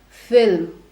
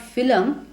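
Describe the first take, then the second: First: No vowel is heard between l and m. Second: An extra vowel is heard between l and m. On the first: The speaker calls it right. "it is film" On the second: The speaker calls it wrong. "it's not film"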